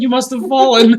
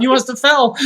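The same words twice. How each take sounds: First: A louder, hammed-up innocent excuse; Lana's real wording, loud and mock-innocent; innocent denial. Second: A louder, hammed-up innocent excuse; innocent denial. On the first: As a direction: correct the quote, same mock innocence. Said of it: "I think she actually said". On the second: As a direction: blame the ref lightly. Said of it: "full [name]".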